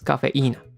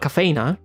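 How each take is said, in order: First: The 'i' syllable carries the strongest stress. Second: The 'i' syllable is not the stressed one. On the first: The speaker calls it right. "that's the strongest syllable" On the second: The speaker calls it wrong. "It's not cafeína"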